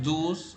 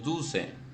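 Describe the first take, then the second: First: The word ends without a final vowel sound. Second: The word ends with a sounded final vowel. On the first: The speaker calls it right. "por eso decimos douze" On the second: The speaker calls it wrong. "no decimos douce"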